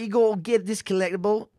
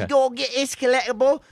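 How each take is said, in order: First: It is said in his normal accent. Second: It is said in a Fable-style English accent.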